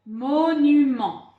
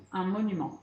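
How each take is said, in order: First: "Monument" read louder and very slowly, each syllable clear. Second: Said in the usual way. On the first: Shown as a demonstration. Teacher reading "Monument" aloud to pupils, slow and loud. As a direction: sound out "Monument" slowly for the class. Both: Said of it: "à vous de lire ce mot".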